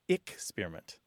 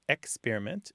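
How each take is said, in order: First: The first syllable is said as 'ick'. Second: The first syllable is said as a full 'ex'. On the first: "some people it's ick-spearment" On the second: "some people, it's experiment"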